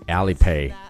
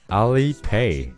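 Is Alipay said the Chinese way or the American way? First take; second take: American; Chinese. First: The first part is said with an American vowel. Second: The first part is said like Chinese 'a-li'. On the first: "部分美国人会把它读成Alipay，把前面的R 读成了A" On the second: "他的支付宝就是阿里Pay"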